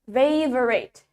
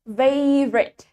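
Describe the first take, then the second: First: The word is said with three syllables. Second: The word is said with two syllables. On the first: "in British English, this word has three syllable" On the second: "In American English, kata ini punya dua suku kata"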